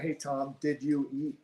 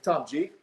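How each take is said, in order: First: Each word is said clearly and separately. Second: The words are jammed together New Jersey style.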